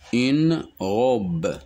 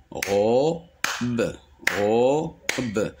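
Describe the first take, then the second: First: Said in the usual way. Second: "robe" split into ro, pause, be; syllable by syllable. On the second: Shown as a demonstration. Teacher demonstrating two syllables, syllable by syllable. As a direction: separate "robe" into two sounded beats. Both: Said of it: "Le mot robe contient deux syllabes".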